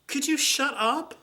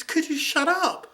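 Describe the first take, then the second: First: High, slow, far-off mocking voice; pointed mock snap, slow and high; snippy retort. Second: High, slow mocking voice, a little louder; slow sneering shut-up line; snippy retort. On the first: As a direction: sneer it out slowly and high. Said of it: "my response was". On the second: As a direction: drag each word out, high and pointed. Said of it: "That's all it was".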